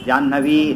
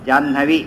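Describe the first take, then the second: First: The final vowel is held long. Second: The final vowel is cut short. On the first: "ಜಾಹ್ನವಿ ದೀರ್ಘ" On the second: "ಏನದು ಹ್ರಸ್ವ"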